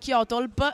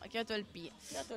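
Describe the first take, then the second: First: LP is run together as a single word. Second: LP is said as two separate letters. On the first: The speaker calls it wrong. "Antonella ogni tanto mi chiama Kyotolp" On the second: The speaker calls it right. "però no"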